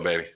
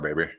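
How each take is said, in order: First: It is said in his normal voice. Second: It is said in an Austin Powers voice.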